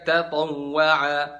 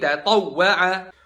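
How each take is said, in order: First: The doubled w gets no extra jolt. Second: The doubled w gets a short stressed jolt. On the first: The speaker calls it wrong. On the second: The speaker calls it right.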